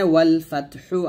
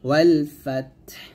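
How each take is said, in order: First: The last word ends with a vowel. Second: The last word ends with a consonant. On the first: "এখানে ওয়াল ফাতহু আছে" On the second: "থামলে এই হাটা সাকিন করে ফেলবো"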